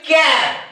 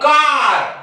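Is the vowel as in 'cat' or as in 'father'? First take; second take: cat; father. First: The vowel is a short front 'a' sound. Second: The vowel is a long open 'ah' sound. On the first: The speaker calls it wrong. "ज्या विद्यार्थ्यांना हा नियम माहित नाही ते काय म्हणतील" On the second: The speaker calls it right. "या येचा उच्चार त्या प्रकारच्या स्पेलिंग मध्ये आ होतो"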